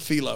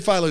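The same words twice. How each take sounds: First: The name is said in an Italian-sounding way. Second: The name is said in a plain English way. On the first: This copies another person's mistaken version. The speaker calls it wrong. "you still went Philo" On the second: This is the usual way the name is said. The speaker calls it right. "You heard us say Philo six times"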